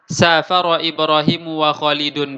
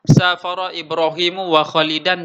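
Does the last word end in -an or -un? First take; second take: -un; -an. First: The last word ends with the vowel u. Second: The last word ends with the vowel a. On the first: Both people share the same action equally. "wawunya di sini adalah wawu ataf" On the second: One person did it together with the other. "wawu ma'iyah"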